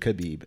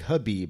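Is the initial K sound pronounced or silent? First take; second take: pronounced; silent. First: The name starts with a clear K sound. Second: The name starts without a K sound. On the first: The speaker calls it wrong. "instead of" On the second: The speaker calls it right. "the K Khabib. Is like is silent"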